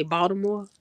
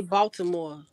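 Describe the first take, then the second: First: Baltimore said as outsiders say it; "Baltimore" in a non-Chicago pronunciation; non-local pronunciation of Baltimore. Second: Baltimore said the Chicago way; "Baltimore" in a Chicago pronunciation; local pronunciation of Baltimore. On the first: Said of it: "We don't say Baltimore". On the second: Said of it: "we say Baltimore and Chicago". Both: Shown as a demonstration.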